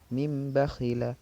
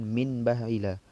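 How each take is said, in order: First: The nasal before bakhila is an m sound. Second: The nasal before bakhila is an n sound. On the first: The speaker calls it right. "maka dia dibaca menjadi mim" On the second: The speaker calls it wrong. "Bukan min bakhila"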